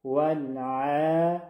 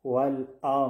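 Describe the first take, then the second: First: ولع chanted slowly with a soft throat ayn and thin vowel; slow, correct tajweed ولع. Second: ولع wrongly said "wal-aa" with a glottal stop for the ayn; ayn as hamza. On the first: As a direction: stretch ولع gently from mid-throat, vowel kept light. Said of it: "درستش". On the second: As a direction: replace the throat ayn in ولع with a plain hamza. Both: Shown as a demonstration.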